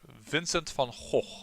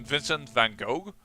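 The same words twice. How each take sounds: First: The name is said the Dutch way. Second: The name is said the English way.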